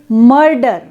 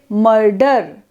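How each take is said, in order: First: The vowel sound is given full stress. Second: The vowel sound is said without stress. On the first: "Suppose we stress the vowel a, we will say" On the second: "we don't want to stress a sound, then we say"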